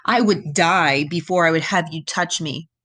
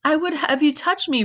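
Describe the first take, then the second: First: Mildly scornful refusal; a touch of disdain, firmly read; cruel contempt. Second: High-pitched, pleading repetition; pitiful echo. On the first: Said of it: "his voice full of cruel contempt". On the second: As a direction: voice a poor rejected nymph, much higher. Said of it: "repeated poor Echo". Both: A narrator's reading.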